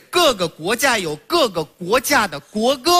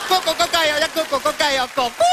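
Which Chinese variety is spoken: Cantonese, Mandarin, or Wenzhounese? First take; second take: Mandarin; Wenzhounese. First: It is spoken in standard Mandarin pronunciation. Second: It is spoken in Wenzhounese pronunciation. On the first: "我说的是各个国家有各个国家的国歌" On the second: "温州话"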